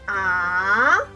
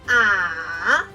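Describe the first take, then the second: First: The pitch rises and is held long. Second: The pitch is low, nearly flat and short. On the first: "We say this up and long" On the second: "Say it low, almost flat and short"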